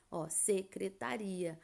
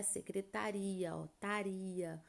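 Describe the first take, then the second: First: Secretaria said clearly, ia split apart; word demo. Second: Secretaria, taria said softly and slowly, ta unstressed; softly sounding out taria; hiatus demo. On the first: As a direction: spell out secretaria by sound. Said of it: "Veja o caso da palavra secretaria". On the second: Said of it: "o tá aí não é acentuado". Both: Shown as a demonstration.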